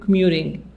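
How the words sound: It is said with an American accent.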